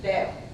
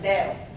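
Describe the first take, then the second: No difference in how they are said.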